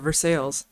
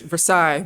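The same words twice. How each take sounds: First: It is pronounced the local Kentucky way. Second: It is pronounced the French way. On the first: It names the local place. "here we say" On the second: It names the city in France. "it's France, it's Versailles"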